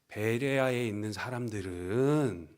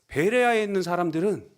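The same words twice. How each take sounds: First: It is said in an ambiguous, noncommittal tone. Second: It is said in an impressed, praising tone. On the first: Either praise or criticism could follow. "그럼 약간 애매하죠?" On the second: Praise or a surprising good fact will follow. "칭찬이나 덕이 되는 정보를 전하려는 이런 말투처럼 들립니다"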